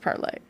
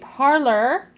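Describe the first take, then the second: First: The word ends in an 'ay' sound. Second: The word ends in an 'or' sound. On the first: The speaker calls it right. "It's pronounced parlay" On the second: The speaker calls it wrong. "pet peeve is everybody pronouncing it parlor"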